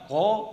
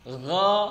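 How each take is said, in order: First: The vowel is said with rounded, pushed-out lips. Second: The vowel is said with an open mouth. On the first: The speaker calls it wrong. "jangan sampai monyong ya" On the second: The speaker calls it right. "Terbuka maka terbuka, bukan memonyongkan"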